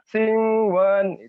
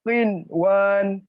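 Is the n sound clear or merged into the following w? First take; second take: merged; clear. First: The n is nasalized and blends into the w. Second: The n is pronounced clearly before the w. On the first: The speaker calls it wrong. "tidak boleh dibaca" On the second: The speaker calls it right. "Yang betul sin wan"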